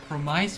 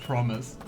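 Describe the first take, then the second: First: The second syllable sounds like 'mice'. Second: The second syllable sounds like 'miss'. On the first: The speaker calls it wrong. "one of my favorite pronunciations" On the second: The speaker calls it right. "instead of promise"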